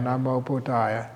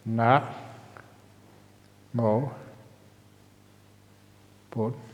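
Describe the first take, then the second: First: The syllables run together without pauses. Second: Longer pauses separate the syllables.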